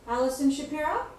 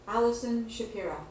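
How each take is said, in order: First: The voice rises at the end of the name. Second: The voice falls at the end of the name. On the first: The speaker sounds unsure, as if asking a question. The speaker calls it wrong. "Do you hear the difference?" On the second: The speaker sounds confident and authoritative. The speaker calls it right. "In the second example, my voice sounds more confident"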